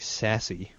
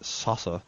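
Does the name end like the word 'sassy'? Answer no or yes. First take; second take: yes; no. First: The name ends with an 'ee' sound. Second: The name does not end with 'ee'. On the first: "you could say sassy" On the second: "I prefer to pronounce that Sasse"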